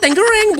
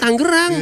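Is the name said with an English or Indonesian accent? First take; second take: English; Indonesian. First: The name is said with an English-sounding accent. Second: The name is said with an ordinary Indonesian accent. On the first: This is how the foreign visitor said it. "dia ngomongnya Tangerang" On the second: This is how locals normally say it. "bukan bukan bukan Tangerang"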